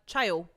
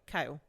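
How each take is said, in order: First: The name begins with a 'ch' sound. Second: The name begins with a 'k' sound. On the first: The speaker calls it wrong. "Every single time I see it, I'm like" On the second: The speaker calls it right.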